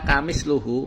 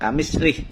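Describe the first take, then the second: First: The word ends in luhu with u vowels. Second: The word ends in lih with no final vowel. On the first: "menggunakan domah lamnya, wa domil hak, dan domah haknya" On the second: "kasroh lamnya dan sukun haknya"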